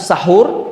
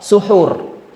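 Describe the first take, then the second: First: The first syllable has an 'a' vowel. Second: The first syllable has a 'u' vowel. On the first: "Dengan fathah atau sahur" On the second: "dengan sinnya dhammah, suhur"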